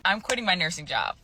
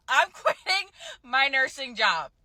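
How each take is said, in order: First: Said in the usual way. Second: Higher-pitched, giddy announcement; excited. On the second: Real, not acted. Nurse telling viewers she is quitting, excited. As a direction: squeal the news out with excitement. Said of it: "You sound so excited".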